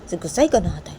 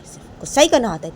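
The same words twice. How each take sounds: First: Said in the usual way. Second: Higher, louder complaint; louder repeat. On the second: Acted. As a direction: say it again with more heat.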